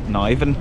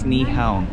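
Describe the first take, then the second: First: The name is read as it looks in English. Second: The name is given an attempted Danish pronunciation. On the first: The speaker calls it wrong. "to us looking at it, it might just read as like Niven" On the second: The speaker calls it right. "but I think it's Nyhavn"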